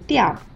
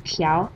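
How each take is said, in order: First: The syllable has a sharply falling tone. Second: The syllable has a rising tone. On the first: "读调，四声" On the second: "读调，二声"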